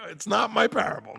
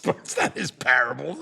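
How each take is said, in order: First: "my" in "It's not my parable" pitched high and punched; stress on MY. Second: Mock objection leaning on "not" in "it's not his parable"; mock viewer objection. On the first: Shown as a demonstration. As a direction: insist the parable isn't yours by hitting "my" hard. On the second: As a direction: play a viewer catching him out, pressing on "not". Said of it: "somebody's watching this video later and goes".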